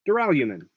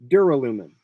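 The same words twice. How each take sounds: First: The U is said with a Y glide, like 'you'. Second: The U is said plainly, without a Y glide. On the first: The speaker calls it right. "It gives you the liquid U" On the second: The speaker calls it wrong. "I don't like that pronunciation"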